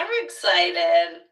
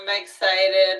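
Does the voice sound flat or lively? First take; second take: lively; flat. First: It is said lively, with varied pitch movement. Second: It is said flat, with little pitch movement. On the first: The speaker calls it right. "with actual intonation" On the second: The speaker calls it wrong. "it's hard to understand"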